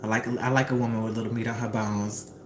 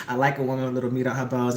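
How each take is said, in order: First: Low, lightly voiced suave man; a hint of a smooth neighbour; smooth man's line. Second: Lower, quick suave quote; a hint of a smooth neighbour; faster smooth man. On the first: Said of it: "he says back to her". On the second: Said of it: "zoomed in on his mouth".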